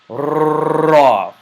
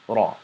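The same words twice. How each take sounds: First: The R is trilled strongly with heavy tongue vibration. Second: The R has only a slight tongue vibration. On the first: "The reason I wanted you to exaggerate" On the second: "with more subtlety, which is just Ra"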